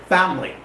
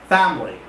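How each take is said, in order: First: The word is said with two syllables. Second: The same.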